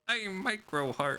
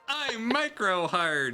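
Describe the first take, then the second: First: The line is muttered, low and under the breath. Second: The line is said in a normal, clear voice.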